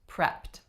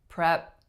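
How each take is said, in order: First: The final T sound is clearly released. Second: The final T sound is left out. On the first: The speaker calls it right. "to release your T" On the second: The speaker calls it wrong. "If I didn't say the T"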